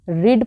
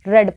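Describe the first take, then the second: First: The vowel is long, as in 'reed'. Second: The vowel is short, as in 'red'. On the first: It refers to the present. "First form को हम रीड pronounce करते हैं" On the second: It refers to the past. "Second form को हम रेड pronounce करते हैं"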